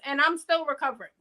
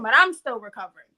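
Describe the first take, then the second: First: Said in the usual way. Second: Louder and quicker, pressing the point; emphatic repeat. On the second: Real, not acted. Stressing she still hasn't recovered, louder and faster. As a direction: hit it hard the second time.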